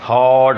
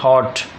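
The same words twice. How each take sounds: First: The vowel is long and drawn out. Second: The vowel is light and quickly cut off. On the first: The speaker calls it wrong. "यूँ नहीं बोलेंगे हॉट, वो heavy dash बोलने की कोशिश नहीं करेंगे" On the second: The speaker calls it right. "Light है, इस तरह बोलेंगे हॉट"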